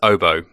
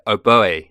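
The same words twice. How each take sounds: First: It ends in a plain 'oh' sound. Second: It ends with an accented 'ay' sound. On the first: "the correct pronunciation is oboe" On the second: "with an accent on the on the e"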